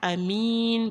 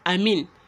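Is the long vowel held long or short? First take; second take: long; short. First: The vowel before the n is held long. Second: The vowel before the n is short. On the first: The speaker calls it right. "Amin because of the mud" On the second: The speaker calls it wrong. "you wouldn't say amin, not just amin"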